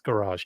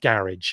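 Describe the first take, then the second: First: It is said in an American way. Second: It is said in a British way.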